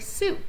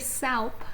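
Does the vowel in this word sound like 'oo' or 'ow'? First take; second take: oo; ow. First: The vowel is said like 'oo'. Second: The vowel is said like 'ow'. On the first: The speaker calls it right. "we'd say soup" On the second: The speaker calls it wrong. "we wouldn't say soup"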